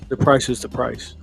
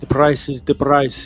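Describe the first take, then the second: First: It is said in an ordinary, natural accent. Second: It is said in a put-on Albanian accent.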